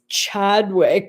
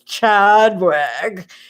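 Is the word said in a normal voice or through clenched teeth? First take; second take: normal voice; clenched teeth. First: It is said in a plain, normal voice. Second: It is said posh through clenched teeth.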